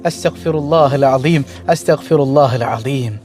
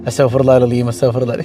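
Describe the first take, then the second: First: Slow, lower, reverent recitation; slow devout prayer. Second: Mother's murmured prayer. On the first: Shown as a demonstration. Preacher showing the congregation how to repent, slow and reverent. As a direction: draw out each word in devotion. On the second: Retold or imitated. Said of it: "ഉമ്മച്ചി ഇങ്ങനെ".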